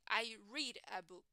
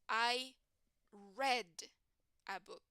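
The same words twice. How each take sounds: First: Read is pronounced in its present-tense form. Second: Read is pronounced in its past-tense form. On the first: The action happens now or habitually. "in the present, I say" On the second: The action happened in the past. "But in the past, I would say"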